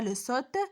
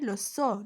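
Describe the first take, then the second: First: The final T sound is pronounced. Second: The final T sound is silent. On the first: The speaker calls it wrong. "on ne se prononce pas le T, on ne dit pas le saute" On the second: The speaker calls it right. "mais le saut. Le T aussi se prononce pas"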